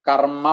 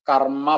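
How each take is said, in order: The two takes are said the same way.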